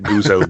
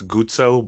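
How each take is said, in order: First: The name has an anglicized, English pronunciation. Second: The name has an Italian pronunciation. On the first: "I grew up pronouncing it Guzzo" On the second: "if you want to do it proper Italian"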